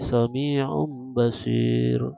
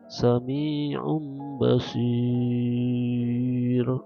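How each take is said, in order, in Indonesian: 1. Vokal panjang terakhir ditahan sebentar. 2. Vokal panjang terakhir ditahan sangat lama. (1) "atau pendek" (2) "itu panjang"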